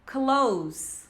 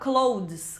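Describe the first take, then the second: First: It ends in a plain z sound. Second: A d-like sound is heard near the end. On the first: The speaker calls it right. "Som de Z no final" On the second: The speaker calls it wrong. "mais ou menos com o som do D"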